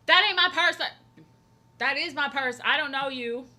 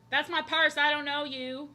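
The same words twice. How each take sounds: First: Loud, high, defensive shriek of a stranger clutching her purse; mock outraged shout. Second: Loud, high mock-indignant yell; quoted meme line. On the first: Streamer imagining strangers in chat, shrieking mock outrage. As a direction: yell it like someone grabbed your bag. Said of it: "I'd be like". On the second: Streamer finally recalling the meme line, mock indignant yell. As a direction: bark the meme line like a startled stranger. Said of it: "What's the line?".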